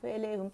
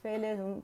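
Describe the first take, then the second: The two takes are said the same way.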